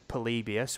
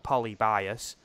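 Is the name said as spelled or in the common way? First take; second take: common way; as spelled. First: The name is said in its commonly heard form. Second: The name is sounded out as it is spelled. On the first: "most people pronounce it Polybius, which I think is the way it's meant to be pronounced" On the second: "it's spelt Polybius"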